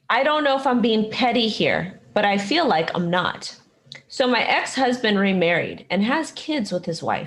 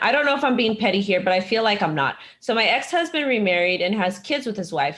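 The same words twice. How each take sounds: First: It is read slowly. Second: It is read fast.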